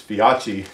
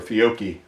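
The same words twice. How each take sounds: First: "Fiocchi" with a ch sound, fee-AH-chee; first pronunciation guess. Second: "Fiocchi" with a hard k, fee-OH-kee; hard k sound in the middle of "Fiocchi"; alternative pronunciation. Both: Shown as a demonstration. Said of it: "not sure how they pronounce that".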